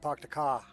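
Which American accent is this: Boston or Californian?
Boston. It is spoken in a Boston accent. "if you're talking about Boston"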